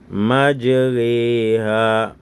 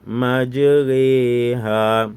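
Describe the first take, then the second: No difference in how they are said.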